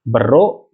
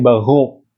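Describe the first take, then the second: First: The R is pronounced as a clear R. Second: The R is a guttural, ghain-like sound.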